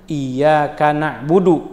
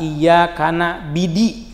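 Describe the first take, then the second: First: The last word is na'budu, with u vowels. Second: The last word has i vowels, na'bidi. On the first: The speaker calls it right. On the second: The speaker calls it wrong. "kasribaiha ... misalnya"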